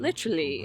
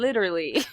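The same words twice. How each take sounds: First: It is said in a British accent. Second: It is said in an American accent. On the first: It is the way picked up on a trip abroad. "When I visited England, it happened so fast... I came back saying stuff like literally" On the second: It is the speaker's usual way. "instead of"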